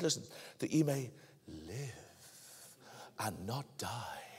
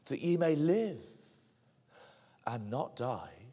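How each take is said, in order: First: It is said in a put-on serpent voice. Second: It is read in a normal voice.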